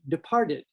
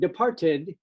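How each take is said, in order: First: The middle T is softened to a D sound. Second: The middle T is pronounced as a crisp T. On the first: The speaker calls it right. "Departed has a T that we pronounce like a D" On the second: The speaker calls it wrong. "If we started saying departed, then all of a sudden it sounds unnatural"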